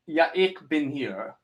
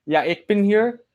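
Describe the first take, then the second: First: Slow, soft "Ja, ich bin hier", falling at the end; careful German pronunciation. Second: Higher "Ja, ich bin hier", rising on "hier"; questioning pronunciation attempt. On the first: Streamer reads out a viewer's name, careful German pronunciation. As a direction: sound out "Ja, ich bin hier" gently, "ich" as ick. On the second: Streamer checks a viewer's name, questioning pronunciation attempt. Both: Shown as a demonstration. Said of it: "how do you pronounce your name".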